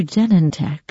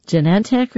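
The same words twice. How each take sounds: First: "Genentech" as JEN-en-tek; first-syllable stress. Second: "Genentech" as juh-NEN-tek; second-syllable stress. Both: Shown as a demonstration. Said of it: "Is it Genentech or Genentech?".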